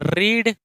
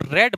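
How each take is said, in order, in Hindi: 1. स्वर लंबा है, 'reed' जैसा। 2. स्वर छोटा है, 'red' जैसा। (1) "रीड का मतलब होता है पढ़ना।" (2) "बट इसको रेड बोलते हैं।"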